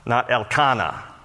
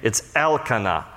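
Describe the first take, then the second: First: The stress is on a later syllable. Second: The stress is on the first syllable. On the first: The speaker calls it wrong. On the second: The speaker calls it right. "the emphasis is always on the name of God part of someone's name. El is the prefix"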